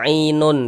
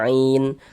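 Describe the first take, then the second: First: The word ends with an extra syllable, nun. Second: The word ends on a bare n sound. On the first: The speaker calls it wrong. "Jangan dibaca ainun" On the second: The speaker calls it right. "tapi dibaca ain"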